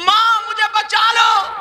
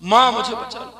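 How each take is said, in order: First: Cried out higher and louder; girl's scream. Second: Said in the usual way. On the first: Retold or imitated. Girl screaming to her mother for help. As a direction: make the last plea a real shout. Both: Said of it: "लड़की चीखने लगी".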